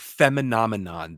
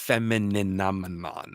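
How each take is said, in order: First: The word is said with five syllables. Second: The word is said with six syllables. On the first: The speaker calls it wrong. "I keep wanting to call it Feminomenon" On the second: The speaker calls it right. "she gets that extra syllable in there"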